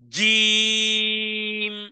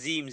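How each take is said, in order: First: The letter is said with a hard, forceful push. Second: The letter is said softly, with no push. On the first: The speaker calls it right. "কিভাবে দেখুন?" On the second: The speaker calls it wrong. "ধাক্কা না দিলে হবে না, তাহলে হবে"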